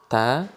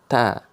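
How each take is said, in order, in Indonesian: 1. Bunyinya tipis dan ringan. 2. Bunyinya tipis dan ringan.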